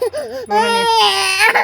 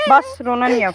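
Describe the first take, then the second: First: Very high, slow, sing-song don't-cry; mother cooing a long, high plea to stop crying; drawn-out soothing. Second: Mother calming her crying son, loudly; soothing. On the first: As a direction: stretch it out to calm him. Comforting crying son. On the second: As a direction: hush him, firmly. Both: Real, not acted.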